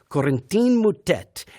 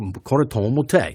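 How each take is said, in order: First: The name is pronounced in a Spanish style. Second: The name is pronounced in a French style. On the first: The speaker calls it wrong. "he did it in a Spanish style" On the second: The speaker calls it right. "my French is horrible, but that's more or less how you would say it"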